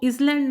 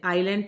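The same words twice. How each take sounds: First: इसलैंड with the s sounded; wrong spelt-out s. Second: आइलैंड with no s, आइ into लैंड; correct silent s. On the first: Teacher showing students the wrong इसलैंड with s. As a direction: say इसलैंड voicing the s. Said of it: "इसलैंड नहीं पढ़ते". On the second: Teacher giving students the correct आइलैंड, no s. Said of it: "आइलैंड पढ़ते हैं". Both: Shown as a demonstration.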